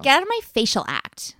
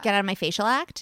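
First: It is said with lots of energy. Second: It is said flatly, without much energy.

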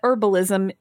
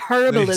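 First: Said American style, with a silent h. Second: Said British style, with the h pronounced.

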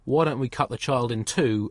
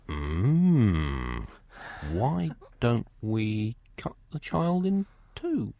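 First: It is said in a calm, measured tone. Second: It is said in an eager, hungry tone. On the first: It is a wise test of the mothers. "there is a very great difference between saying" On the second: The speaker wants to eat the baby. "Wine list. Mustard, not the grainy stuff"

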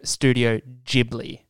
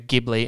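First: The word begins with a J sound. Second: The word begins with a hard G sound. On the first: The speaker calls it right. "it's pronounced with a J instead of a G" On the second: The speaker calls it wrong. "you said Studio Ghibli instead of"

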